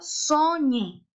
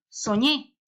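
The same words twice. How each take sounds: First: The stress is on the first syllable. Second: The stress is on the last syllable. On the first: The speaker calls it wrong. "¿Estará bien dicho o no? No" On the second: The speaker calls it right. "¿Dónde lleva la tilde entonces? En la E"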